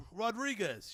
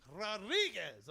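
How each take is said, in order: First: Said in the usual way. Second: "Rodriguez" slowly, with trilled Spanish Rs; mimicked Spanish pronunciation of "Rodriguez", drawn out; rolled-R Rodriguez. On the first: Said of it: "just my Brooklyn accent". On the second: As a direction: rip the tongue on the R of "Rodriguez". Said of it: "Like, ripping the tongue".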